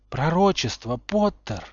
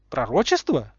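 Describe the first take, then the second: First: Cold, measured demand; chilly insistence, lifting on the name; icy voice. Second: Lazily curious query; unbothered question at an everyday pitch; lazy interest. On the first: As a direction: demand it icily, without shouting. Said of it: "ледяным голосом произнёс Малфой". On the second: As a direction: ask it idly, in no hurry. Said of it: "лениво поинтересовался Поттер". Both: A narrator's reading.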